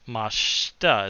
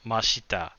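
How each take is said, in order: First: The vowel after sh is dropped. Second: The vowel after sh is fully voiced. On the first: The speaker calls it right. "mashita is how that ends" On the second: The speaker calls it wrong. "not mashita"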